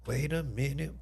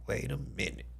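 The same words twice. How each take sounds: First: Said in the usual way. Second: Soft, drawn-back repeat under the breath; quiet double take. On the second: Real, not acted. Streamer rechecks the photo, hushed "wait a minute". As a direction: say "wait a minute" softer, to yourself.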